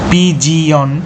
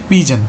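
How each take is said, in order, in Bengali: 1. শব্দটি তিনটি শব্দাংশে উচ্চারিত হয়। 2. শব্দটি দুটি শব্দাংশে উচ্চারিত হয়। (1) "বানানটা ঠিকঠাক হবে" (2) "আসল উচ্চারণ হচ্ছে পিজন"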